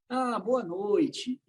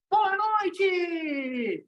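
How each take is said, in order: First: It is said without enthusiasm. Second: It is said with energy.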